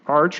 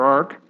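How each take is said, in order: First: The word ends with a ch sound. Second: The word ends with a k sound. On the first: "In some cases, we may pronounce it as arch" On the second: "If you were thinking of an archangel, that would we pronounce it as arc"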